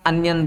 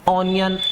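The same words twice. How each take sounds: First: अनियन starting with a short, open "uh", as in "un-yun"; correct pronunciation. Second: ऑनियन with a rounded "aw" at the start, the wrong way; wrong pronunciation. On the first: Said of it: "pronunciation जो शुद्ध बनेगा वो इसका अनियन बनेगा". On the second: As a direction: say ऑनियन as "aw-nion", reading it as spelled. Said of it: "ऑनियन बोला तो ये गलत हो गया". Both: Shown as a demonstration.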